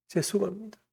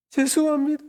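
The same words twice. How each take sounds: First: Soft, choked first apology before the sobbing breaks; tearful apology. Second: Much higher, louder wailing 죄송합니다 as the sob breaks through; crying apology. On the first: Boy at camp apologizing to Jesus, choked and tearful. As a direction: hold the tears back, barely getting it out. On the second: Boy at camp apologizing to Jesus, breaking into sobs. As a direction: let the crying burst out on 죄송합니다. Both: Retold or imitated. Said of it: "하면서 막 엉엉 우는 거예요".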